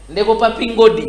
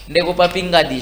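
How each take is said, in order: First: Ngodi said with an o sound; name as Ngodi, not Ngadi; wrong name. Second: Ngadi said with an open a; corrected name. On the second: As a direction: say Ngadi with a clear a. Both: Real, not acted. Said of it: "Ngadi, pardon".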